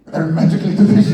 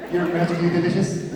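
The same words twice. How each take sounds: First: Very loud, raised fake Scottish accent; hammed-up shouted Scottish accent; mock Scottish accent. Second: Raised, lilting fake Irish accent; playful Irish-accent catchphrase; mock Irish accent. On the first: Shown as a demonstration. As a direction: belt it out in a joke Scottish accent. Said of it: "uh, Scottish". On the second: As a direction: ham up a cartoonish Irish accent. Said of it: "That's Ireland".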